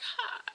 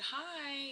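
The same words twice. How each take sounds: First: It is said in a dry, hoarse voice. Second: It is said in a clear, normal voice.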